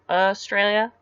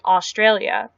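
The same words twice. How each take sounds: First: The first vowel sounds like 'uh'. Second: The first vowel sounds like 'aw'. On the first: This is how Australians say it. "it's like U H" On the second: This is how non-Australians say it. "Australian people don't say Australia"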